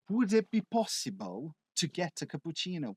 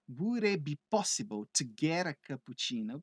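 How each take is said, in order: First: Spoken in a non-American accent with a clear T. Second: Spoken in an American accent with a flapped T.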